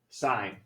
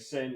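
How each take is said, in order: First: The vowel is long, rhyming with 'line'. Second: The vowel is short, rhyming with 'win'. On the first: The speaker calls it right. "It's called sine" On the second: The speaker calls it wrong. "Please don't say sin"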